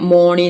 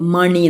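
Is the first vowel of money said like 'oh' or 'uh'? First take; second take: oh; uh. First: The first vowel sounds like 'oh'. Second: The first vowel sounds like 'uh'. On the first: The speaker calls it wrong. "ഓക്കോ ഓൻ്റെ sound കൊടുക്കുകയാണെങ്കിൽ മോണി എന്നാണ് വായിക്കുക" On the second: The speaker calls it right. "പക്ഷെ അങ്ങനെയല്ല, ... മണി എന്നാണ് വായിക്കുക"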